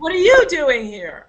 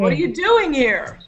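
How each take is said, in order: First: The stress is on you. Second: The stress is on doing.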